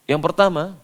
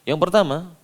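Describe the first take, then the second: The two takes are said the same way.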